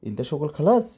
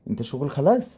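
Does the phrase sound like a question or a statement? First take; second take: question; question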